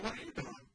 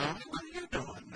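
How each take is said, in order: First: Light high quiet ask of "What are you doing?"; casual parent check-in, higher and softer; gentle curious question to a teenager. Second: "What are you doing?" lifted much higher and softer; breezy, innocent parent question; light high voice, just curious; friendly sing-song ask. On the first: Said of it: "you may just ask them". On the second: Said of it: "all you wanted to do as a parent is to know". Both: Shown as a demonstration.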